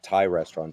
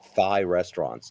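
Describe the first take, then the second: First: Thai begins with a plain t sound. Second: Thai begins with a th sound. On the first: "not Thai restaurants" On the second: "he used to mispronounce it"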